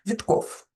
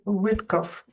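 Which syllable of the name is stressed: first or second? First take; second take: second; first. First: The stress is on the second syllable. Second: The stress is on the first syllable. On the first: The speaker calls it right. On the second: The speaker calls it wrong.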